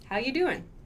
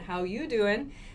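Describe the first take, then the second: First: It sounds like a plain, casual greeting. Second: It sounds flirty, like Joey from Friends.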